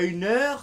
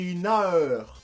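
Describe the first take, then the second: First: The vowel is plain, with no added a sound. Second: The vowel has a small a sound added. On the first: The speaker calls it wrong. "C'est pas une heure" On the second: The speaker calls it right. "Le E se prononce A E"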